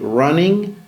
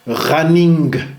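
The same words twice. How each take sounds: First: The ending is a pure nasal with no hard g. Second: The ending has a hard g or k after the nasal. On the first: The speaker calls it right. "c'est un son nasal unique" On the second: The speaker calls it wrong. "comme un N K ou N G dur, ... C'est pas correct"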